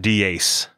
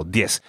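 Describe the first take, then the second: First: "diez" broken into dee-ace; two syllables. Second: "Diez" as a single dyess; one syllable. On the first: Teacher showing learners the mistake, two-syllable "diez". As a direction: wrongly split "diez" into two beats. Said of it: "Not diez". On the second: Teacher showing the right way, one-syllable "Diez". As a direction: glide "Diez" into one beat. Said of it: "just one syllable". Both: Shown as a demonstration.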